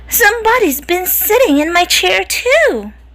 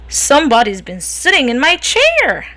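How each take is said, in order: First: It is said in a soft medium voice. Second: It is said in a big growly voice.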